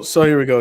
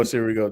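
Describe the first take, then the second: First: Raised, punchy kickoff with the stress on so; louder announcing take. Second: Said in the usual way. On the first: Shown as a demonstration. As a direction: launch the segment loudly on so.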